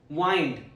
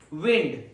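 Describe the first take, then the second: First: The vowel is long, as in find. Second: The vowel is short, as in pinned. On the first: To coil or twist around. "rhymes with find" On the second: Moving air outdoors. "rhymes with pinned"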